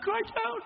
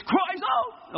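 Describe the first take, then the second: First: Said in the usual way. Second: Shouted cries out. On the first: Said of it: "It's not". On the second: Shown as a demonstration. Preacher showing the class how to say it, shouting.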